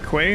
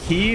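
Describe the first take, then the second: First: The word is said like 'kway'. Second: The word is said like 'key'. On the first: The speaker calls it wrong. "not Quay" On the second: The speaker calls it right. "That's Key"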